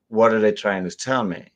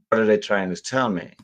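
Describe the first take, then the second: Both takes have the same delivery.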